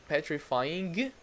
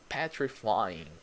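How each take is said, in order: First: The word ends with a hard G sound. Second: The word ends in a nasal without G. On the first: The speaker calls it wrong. "you don't say petrifying. It's a G. Doesn't exist" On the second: The speaker calls it right. "You don't actually pronounce the G. You say petrifying"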